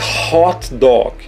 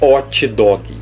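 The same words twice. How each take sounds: First: It begins with a soft, breathy H sound. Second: It begins with a strong, rough R sound. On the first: The speaker calls it right. "Vai ter um som de R fraco" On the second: The speaker calls it wrong. "Não é hot dog"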